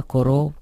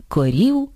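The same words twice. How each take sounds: First: "коров" keeping o in the last syllable; no vowel alternation. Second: "корів" with i in the last syllable; slow, careful Ukrainian "корів"; standard vowel alternation. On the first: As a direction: say "коров" with o, not Ukrainian i. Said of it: "із відсутністю чергування о і або е і". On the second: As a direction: say "корів" with ee, not o. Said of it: "замість корів голів". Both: Shown as a demonstration.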